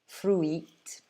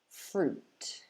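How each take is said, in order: First: The vowel is split into two separate sounds. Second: The vowel is one long oo sound. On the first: The speaker calls it wrong. "I've heard some of my students saying things like fruit" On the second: The speaker calls it right. "You just need a long U sound"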